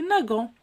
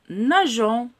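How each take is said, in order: First: The g sounds hard, like the g in go. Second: The g sounds soft, like the s in measure. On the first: The speaker calls it wrong. "si je supprime le E, je veux le prononcer nagant. Ça, c'est incorrect" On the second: The speaker calls it right. "je dois ajouter le E"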